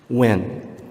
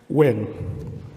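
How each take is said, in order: First: It is said seriously, with focused intensity. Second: It is said lightly, without intensity.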